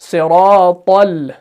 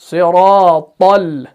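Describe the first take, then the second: No difference in how they are said.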